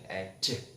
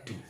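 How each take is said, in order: First: The middle consonant is a j sound. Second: The middle consonant is a plain d sound. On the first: The speaker calls it right. "Yang benar adalah education" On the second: The speaker calls it wrong. "sering membaca edu, tetap D ya ... ini salah"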